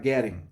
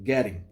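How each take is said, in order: First: It is said with an American accent. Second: The same.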